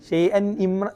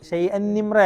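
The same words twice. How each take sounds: No difference in how they are said.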